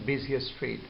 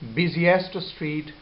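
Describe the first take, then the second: First: The t sound in 'busiest' is dropped. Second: The t sound in 'busiest' is pronounced.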